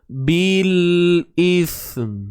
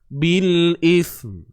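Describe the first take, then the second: First: The phrase is said slowly, sound by sound. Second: The phrase is said at a normal, natural speed.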